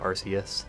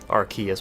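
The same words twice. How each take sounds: First: The c is said as a soft s. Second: The c is said as a hard k. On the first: "When it first came out, I probably called it" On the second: "with like a hard K sound"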